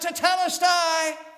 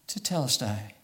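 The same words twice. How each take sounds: First: It is cried out triumphantly. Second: It is said weakly, without triumph.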